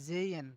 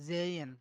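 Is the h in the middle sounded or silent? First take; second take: silent; silent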